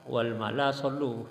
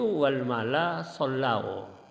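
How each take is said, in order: First: The last word ends in a plain 'u' vowel. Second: The last word ends in an 'au' diphthong. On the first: It tells everyone to pray, as a command. The speaker calls it wrong. "Padahal itu keliru" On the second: It says that everyone prayed. The speaker calls it right. "Yang betul itu wal mala sollau"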